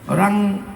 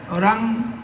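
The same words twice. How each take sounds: No difference in how they are said.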